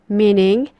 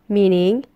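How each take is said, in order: The two takes are said the same way.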